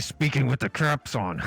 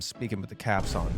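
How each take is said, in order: First: It is said loudly, almost shouted. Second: It is said at a normal, calm volume.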